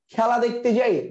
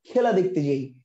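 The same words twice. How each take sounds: First: "খেলা" with wide ae, "khæla"; open ae vowel. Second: "খেলা" with tight e, "khela"; close e vowel. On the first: Child telling mother about the game, open ae vowel. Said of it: "আপনি কখনো বলেন". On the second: Teacher offering students the wrong reading, close e vowel. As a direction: read "খেলা" as spelt, with close e. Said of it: "খেলা দেখতে যাই কখনো বলেন?". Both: Shown as a demonstration.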